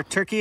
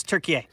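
First: Said in the usual way. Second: Turkey said "tur-kee-AY"; Turkish-style pronunciation. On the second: Shown as a demonstration. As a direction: finish Turkey with an "ay" syllable. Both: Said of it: "it's no longer Turkey".

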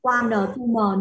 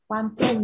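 First: Quan N tu M with N and M sounded apart; separated final consonants. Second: Quantum, blended without spelling out letters; joined syllables. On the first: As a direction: slowly split off the endings: quan N, tu M. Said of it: "Mình không đọc là". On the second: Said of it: "mình sẽ ghép vào luôn". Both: Shown as a demonstration.

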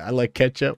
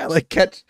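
First: Said in the usual way. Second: Mock quote. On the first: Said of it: "he said". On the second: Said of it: "he just said".

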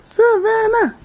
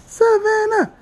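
Both takes have the same delivery.

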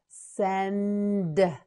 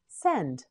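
First: "Send" with long n, separate d; slow modelling. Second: Said in the usual way. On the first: Shown as a demonstration. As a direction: hold the n in "Send". Teacher models word slowly.

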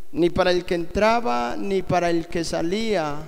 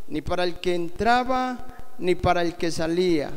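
The two takes are said the same way.

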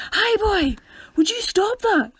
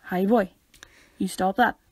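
First: High, loud telling-off shout; loud high-pitched scolding. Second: Contained, threatening telling-off; quietly angry. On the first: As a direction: holler it at a misbehaving lad. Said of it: "you hear shouting going". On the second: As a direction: warn him without raising your voice. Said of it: "the quieter it is, the more angry". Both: Shown as a demonstration.

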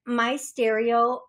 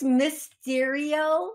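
First: "my stereo" said as two words, my plus stereo, slowly; mispronounced name. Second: "Mysterio" said as one word, mis-TEER-ee-oh, slowly; corrected name. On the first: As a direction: read it wrongly as "my stereo", slow and deliberate. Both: Shown as a demonstration. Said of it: "maybe I'm still saying it wrong".

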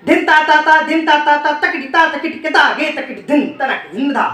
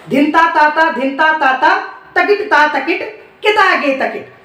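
First: Syllables rolled off fast in one breath; rapid bol recitation. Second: Bol split into paced chunks with pauses; bol recited in pieces. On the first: Teacher showing fast bol recitation, rapid chant. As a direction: rattle through the whole bol quickly. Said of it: "पहले बोलना सीखिए". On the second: Teacher breaking the bol into chunks, paced. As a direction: say it phrase by phrase for learners. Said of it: "क्या बोल है?". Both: Shown as a demonstration.

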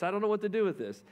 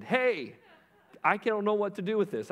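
First: Quick, high mock call, repeating herself; faster retold yell. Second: High, louder mock call across the room; retold yell. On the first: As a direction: rush the repeat, still calling out. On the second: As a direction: call the manager over, half-yelling. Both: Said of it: "She yelled over to the manager".

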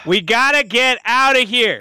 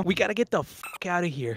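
First: Measured, full-voiced repeat for listeners; deliberate, easy-to-follow delivery; repeating it clearly. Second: Fast, low and quiet; hurried low jumble of words; hard to understand. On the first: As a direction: say it plainly so they understand. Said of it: "No, just say it again". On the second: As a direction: rush it out under your breath. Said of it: "Did you understand a word that he just said". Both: Real, not acted.

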